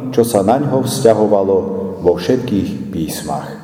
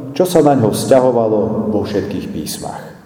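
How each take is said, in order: Both takes have the same delivery.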